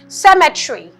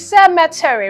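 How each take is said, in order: First: The middle E sound is dropped. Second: The middle E sound is clearly pronounced. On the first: The speaker calls it wrong. "commonly mispronounced as cemetery ... you may miss this E sound" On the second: The speaker calls it right. "so it is cemetery"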